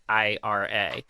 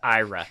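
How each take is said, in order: First: It is said as three separate letters. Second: It is said as one word, like Ira. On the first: The speaker calls it wrong. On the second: The speaker calls it right. "It's named after somebody named Ira, so like it's actually the correct pronunciation of it is"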